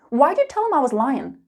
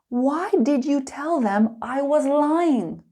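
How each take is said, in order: First: It is spoken fast with words run together. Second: It is spoken slowly with every word clear. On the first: "Let's get angry" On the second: "slow and clear"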